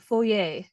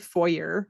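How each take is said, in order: First: The word is pronounced in a fancy, posh way. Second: The word is pronounced in a plain, ordinary way. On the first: It sounds like mansion talk. "I feel like I have to say it like that" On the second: It sounds like a lower social class. "it sounds like the class that we actually belong in"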